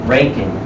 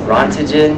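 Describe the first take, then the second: First: The name is said with a 'Rankin'-like sound. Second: The name is said as spelled, 'Ront-gen'. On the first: The speaker calls it right. "This is how you say it" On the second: The speaker calls it wrong. "that's what I thought when I first saw it"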